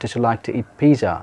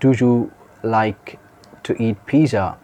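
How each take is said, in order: First: "Do you" is blended into one weak syllable. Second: Both words of "do you" are fully pronounced. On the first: "the weak form is comes to be the sound did you?" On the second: "if you say"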